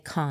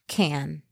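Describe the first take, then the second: First: The name is said with a French-sounding pronunciation. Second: The name is said with an American-sounding pronunciation. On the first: The speaker calls it right. "Just feels more French to say Cannes" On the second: The speaker calls it wrong. "Not Cannes. Like, that sounds very American"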